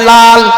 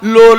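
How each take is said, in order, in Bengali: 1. স্বরধ্বনিটি খোলা 'a'-এর মতো শোনায়। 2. স্বরধ্বনিটি গোলাকার 'o'-এর মতো শোনায়। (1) "আপনারা সবাই লাল বলেন" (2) "লোল না"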